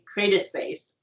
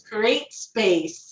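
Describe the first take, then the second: First: An extra vowel sound comes between the two words. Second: The two words run together with no extra vowel. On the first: The speaker calls it wrong. "I would always mispronounce it" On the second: The speaker calls it right. "no, it's create space"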